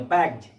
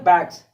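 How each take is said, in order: First: The word ends with a z sound. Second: The word ends with an s sound. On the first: The speaker calls it right. "एस का उच्चारण ज होता है ... शुद्ध pronunciation" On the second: The speaker calls it wrong. "बहुत सारे लोग क्या कहते हैं बैग्स, नो बैग्स नहीं"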